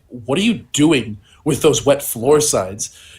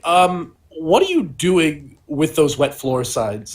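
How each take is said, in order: First: It is said in a gruff voice. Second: It is said in a mild, ungruff voice.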